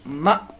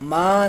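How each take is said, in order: First: The vowel is cut off with an abrupt catch. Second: The vowel is drawn out long without a catch. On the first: The speaker calls it right. "एकदम से आवाज को छोड़ेंगे" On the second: The speaker calls it wrong. "लंबा करके नहीं पढ़ेंगे"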